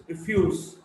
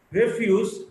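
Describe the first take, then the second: First: "refuse" as ri-FUSE; weak start, strong FUSE in "refuse"; stress on second syllable. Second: "refuse" as REF-use; stress on first syllable. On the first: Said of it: "stressed in the second syllable". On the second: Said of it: "stressed in the first syllable". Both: Shown as a demonstration.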